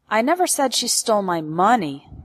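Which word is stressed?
money. The word money carries the main stress. She stole something else, not money. "Implies that she stole something else from me, but it wasn't money"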